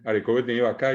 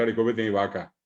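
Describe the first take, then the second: First: "vaca" as va-CÁ in the phrase; Guaraní final stress. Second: "vaca" as VA-ca, falling; Spanish stress. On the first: Retold or imitated. Teacher quoting what people say, final stress. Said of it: "dice la gente". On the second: Shown as a demonstration. Teacher showing what nobody says, first-syllable stress. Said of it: "No dice".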